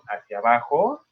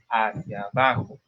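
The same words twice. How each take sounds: First: The pitch does not fall at the end. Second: The pitch falls at the end. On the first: The speaker calls it wrong. "no digo" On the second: The speaker calls it right. "es hacia abajo"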